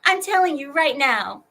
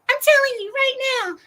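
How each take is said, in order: First: Said in the usual way. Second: Much higher and faster repeat; squeaky, fast mocking repeat; high mock hype. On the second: Shown as a demonstration. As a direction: jump way up in pitch and rush it, teasing.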